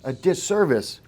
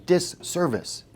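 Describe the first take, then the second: First: Said in the usual way. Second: "Disservice" drawn out slowly, leaning on the hiss; slow stressed word. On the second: Shown as a demonstration. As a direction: spell out "Disservice" slowly for note-taking. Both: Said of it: "Everyone should write that word down".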